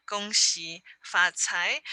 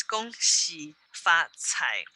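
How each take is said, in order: First: "Gong Xi Fa Cai" said slowly, each syllable clear; slow teaching Mandarin; Mandarin pronunciation. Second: "Gong Xi Fa Cai" said slowly in Mandarin tones, syllable by syllable; slow careful Mandarin; Mandarin pronunciation. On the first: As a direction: model "Gong Xi Fa Cai" for a class. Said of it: "so you can hear the". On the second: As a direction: spell out "Gong Xi Fa Cai" slowly and clearly for learners. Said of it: "Mandarin is just two words". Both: Shown as a demonstration.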